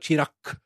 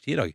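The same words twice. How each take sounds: First: The name ends with a hard k-like sound. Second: The name ends with a soft g sound. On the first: "Så det står Chirag" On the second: "men det uttales Chirag, ... med en litt sånn G i stedet for Q"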